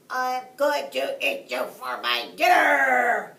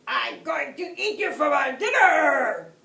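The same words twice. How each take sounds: First: Loud, pinched shout through a clothespin; blocked nose voice. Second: Loud, high, shaking yell; shaking with anger. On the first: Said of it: "he cried as best he could". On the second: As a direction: yell it with rage trembling. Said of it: "yelled the wolf, his voice shaking with anger". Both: A narrator's reading.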